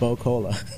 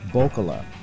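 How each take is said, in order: First: The ending sounds like the word cola. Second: The ending does not sound like the word cola. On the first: The speaker calls it wrong. "I kept calling it Bo-Cola. ... like Bo-Knows Cola" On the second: The speaker calls it right. "that is pronounced Bokola"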